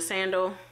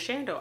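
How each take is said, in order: First: The word begins with a plain s sound. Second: The word begins with a sh sound. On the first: The speaker calls it right. "instead of just saying sandals like a normal person" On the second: The speaker calls it wrong. "I can't not say sandals without saying shandals"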